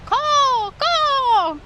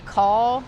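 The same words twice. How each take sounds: First: High, drawn-out falling caw; loud high seagull-style cry; bird call. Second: Said in the usual way. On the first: Shown as a demonstration. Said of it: "keep yelling his name".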